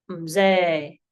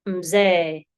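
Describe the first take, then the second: Both takes have the same delivery.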